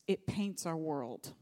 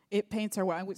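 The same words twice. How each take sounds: First: Slow, lower first telling. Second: Preacher repeats "It paints our world" louder to drive it home; louder emphatic repeat. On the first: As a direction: let it sink in slowly and low. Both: Shown as a demonstration.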